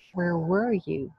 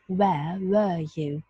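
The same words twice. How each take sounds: First: The r sounds are pronounced after the vowels. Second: The r sounds are dropped after the vowels.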